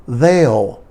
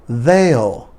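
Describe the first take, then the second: Both takes have the same delivery.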